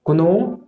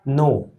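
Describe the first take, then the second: First: कुनो with ku before the n, pitch rising; wrong sounded K. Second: नो starting directly on the n; correct silent K. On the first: Teacher lists wrong readings, know with k sounded. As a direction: voice the silent k in कुनो. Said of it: "ये wrong है". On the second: Teacher gives correct pronunciation of know, k silent. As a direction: say नो with no k sound. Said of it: "correct pronunciation इसका". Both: Shown as a demonstration.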